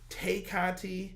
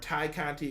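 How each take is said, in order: First: The first name rhymes with 'day'. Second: The first name rhymes with 'eye'. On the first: It is the name as read from its spelling. The speaker calls it wrong. "I always say Tay because I read it that way" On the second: It is the name as it is really pronounced. The speaker calls it right. "excuse me"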